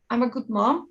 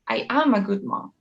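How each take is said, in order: First: The verb is contracted and unstressed. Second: The word am is said strongly. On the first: "instead of saying" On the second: "emphasize this word, stress this word"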